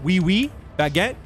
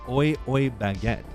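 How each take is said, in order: First: The first two words sound like 'wee'. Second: The first two words sound like 'oy'. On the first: The speaker calls it right. "What is it?" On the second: The speaker calls it wrong. "I did say oi oi baguette"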